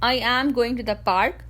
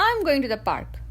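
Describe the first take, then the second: First: "I am" as two separate full words; uncontracted. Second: "I'm" run together as one syllable; contracted. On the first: English coach showing what to avoid, "I am" said in full. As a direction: say "I" and "am" apart, each vowel sounded. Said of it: "Instead of saying". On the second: English coach showing natural speech with "I'm" as one syllable. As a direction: merge "I'm" into one quick word. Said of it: "use contractions". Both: Shown as a demonstration.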